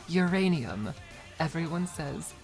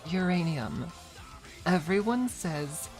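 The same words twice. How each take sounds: The two takes are said the same way.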